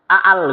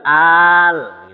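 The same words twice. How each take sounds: First: The vowel is said short. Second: The vowel is drawn out long. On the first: The speaker calls it wrong. "Bukan al gitu bukan" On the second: The speaker calls it right. "Maka bacanya panjang"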